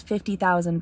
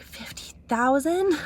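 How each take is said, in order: First: Said in the usual way. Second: Drawn-out, high-pitched disbelieving question; mock astonishment. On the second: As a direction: imitate a stunned echo, slow and high. Printer's astonished echo, retold.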